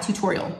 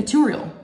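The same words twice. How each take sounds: First: "tutorial" with both Ts sounded; full pronunciation. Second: "tutorial" said too-OR-ee-ul, no second T; dropped second T. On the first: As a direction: say "tutorial" as too-TOR-ee-ul. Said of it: "Why do you say tutorial?". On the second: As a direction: swallow the middle T in "tutorial". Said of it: "she doesn't say the second T". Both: Retold or imitated.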